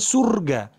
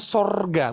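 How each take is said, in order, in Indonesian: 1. Vokal pertama adalah bunyi u. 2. Vokal pertama adalah bunyi o. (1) "bukan surga" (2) "tapi pakai huruf O, sorga"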